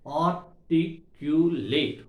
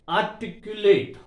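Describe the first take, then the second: First: "articulate" at half speed, each of four syllables separate. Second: Said in the usual way. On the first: Shown as a demonstration. Teacher showing four syllables to students, "articulate" broken up slowly. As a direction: break "articulate" into four slow beats. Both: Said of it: "four syllables are there".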